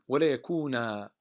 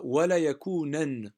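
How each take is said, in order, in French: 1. Le dernier mot se termine par une voyelle longue. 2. Le dernier mot se termine par un son n. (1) "le waqf, il va être comme ça. Yani, on va s'arrêter avec un alif" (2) "on l'aurait prononcé comme ça"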